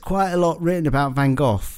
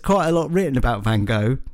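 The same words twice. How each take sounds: First: It is said in a British English accent. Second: It is said in an American English accent. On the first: "can I do the translation?" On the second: "We could do an American translation as well"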